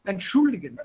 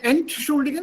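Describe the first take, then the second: First: Entschuldigen with weight on the second syllable SCHUL; stress on SCHUL in Entschuldigen. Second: Entschuldigen pitched high with ENT punched; stress on ENT in Entschuldigen. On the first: Teacher gives student the other option, stress on SCHUL in Entschuldigen. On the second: Teacher tests student with wrong option, stress on ENT in Entschuldigen. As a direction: hit the prefix ENT of Entschuldigen. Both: Shown as a demonstration. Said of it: "stress is again on the second one".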